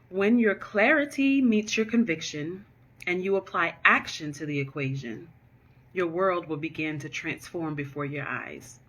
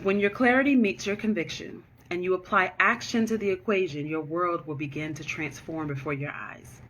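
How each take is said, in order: First: It is said more slowly. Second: It is said at a normal pace.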